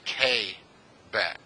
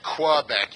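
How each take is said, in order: First: The first syllable sounds like the letter K. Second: The first syllable begins with a 'kw' sound. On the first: The speaker calls it right. "you say K-Bec, as if it was spelled K A Y" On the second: The speaker calls it wrong. "you don't say Quebec"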